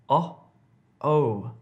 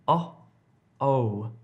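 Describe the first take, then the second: The two takes are said the same way.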